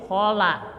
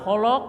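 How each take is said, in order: First: "khola" with an open a after l; right open la. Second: "kholok" with the la rounded to lo; wrong rounded la. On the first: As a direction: say "khola" with the la opened. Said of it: "tapi khola". ("khola" dengan la terbuka) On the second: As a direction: say "kholok" with dark o vowels. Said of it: "jangan kholok". ("kholok" dengan la dibulatkan) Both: Shown as a demonstration.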